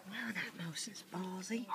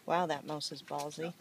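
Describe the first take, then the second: First: Whispering. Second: Said in the usual way. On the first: Real, not acted. Same remark whispered.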